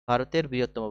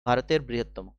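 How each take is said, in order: Both takes have the same delivery.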